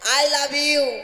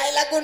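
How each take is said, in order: First: The words 'love' and 'you' are said separately. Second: The words blur into one sound like 'laku'. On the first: The speaker calls it right. "বললাম না I লাভ ইউ" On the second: The speaker calls it wrong. "I লাকু না তো"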